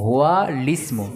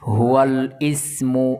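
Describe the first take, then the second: First: The words run together, dropping the connecting vowel. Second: The connecting vowel of the second word is pronounced. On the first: The speaker calls it right. "হামজায় ওয়াসল মিলিয়ে পড়ার সময় উচ্চারণ হবে না" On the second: The speaker calls it wrong. "এভাবে পড়ে না"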